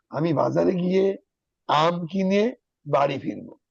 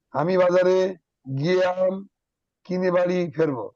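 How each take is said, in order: First: আমি বাজারে গিয়ে, আম কিনে বাড়ি ফিরবো in two slow even phrases; smooth phrasing. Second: আমি বাজারে, গিয়ে আম, কিনে বাড়ি ফেরবো broken at odd places; choppy wrong pauses. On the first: Teacher showing students the right pausing, slow and smooth. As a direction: read it slowly as one flowing sentence, pausing once. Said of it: "সেন্টেন্সটা শুদ্ধমতো রয়েছে না". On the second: Teacher showing students wrong pausing, halting word by word. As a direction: stop between every couple of words as a bad reader would. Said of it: "তাহলে কিরম হয়ে যায়?". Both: Shown as a demonstration.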